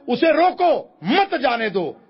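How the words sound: The pause comes after रोको, meaning don't let go.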